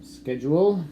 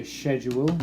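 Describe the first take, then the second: First: Schedule said with a hard sk start, skedjool; schedule as sked-yoo-ul, the American way. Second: Schedule as shed-yoo-ul, the British way. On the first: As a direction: say schedule beginning with sk. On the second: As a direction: say schedule beginning with sh. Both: Shown as a demonstration. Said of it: "The British say schedule".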